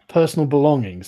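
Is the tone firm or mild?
firm. It is said in a firmer tone.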